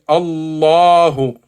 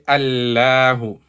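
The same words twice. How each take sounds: First: The L sound is heavy and full-mouthed. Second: The L sound is light and thin. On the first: The speaker calls it right. "you say Allahu" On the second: The speaker calls it wrong. "you don't say Allahu"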